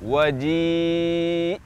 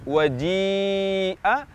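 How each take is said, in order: First: The word ends abruptly on a stopped hamzah. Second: The word ends with a short vowel after hamzah. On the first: "wakaf kita baca menjadi waji'" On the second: "ketika kita baca kata waji'a"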